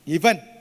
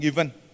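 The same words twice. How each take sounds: First: It is said at a slightly raised pitch. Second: It is said at a normal pitch.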